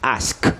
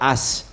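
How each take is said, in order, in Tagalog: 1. Malinaw na binibigkas ang huling tunog na k. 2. Nawawala ang huling tunog na k. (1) "bite your consonants" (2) "instead of as"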